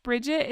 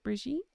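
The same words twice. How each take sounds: First: Said in the usual way. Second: "Brigitte" with a zh sound and stressed ending; French-style name pronunciation. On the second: Shown as a demonstration. Checking a viewer's name, "Brigitte" said French-style. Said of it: "is it Brigitte".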